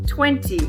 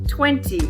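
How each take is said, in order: First: It is said in the careful full written form. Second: It is said in the careful full written form.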